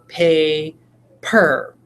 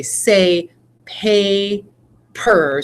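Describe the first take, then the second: First: "pay" then "per" with a pause; syllable demo; split syllables. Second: "pay" and "per" said apart with a pause between; syllable-split demo. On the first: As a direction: tap each syllable out. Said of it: "I actually go". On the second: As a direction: break "paper" into two beats. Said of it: "I would say". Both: Shown as a demonstration.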